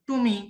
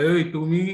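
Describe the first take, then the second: First: Said in the usual way. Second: Louder, hard-hitting "এই তুমি"; punchy demo call "এই তুমি"; hard sharp call. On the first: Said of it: "এটা কিন্তু বলি না". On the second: Shown as a demonstration. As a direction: bark "এই তুমি" to show the hard sound. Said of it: "তুমি শব্দটা আমরা কি বলি?".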